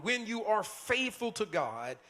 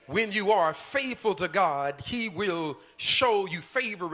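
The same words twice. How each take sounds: First: Said in the usual way. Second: Louder, slower second time; preaching louder. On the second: Shown as a demonstration. Preacher repeats the promise to the church, louder and slower. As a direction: hammer the promise home. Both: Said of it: "hear me out".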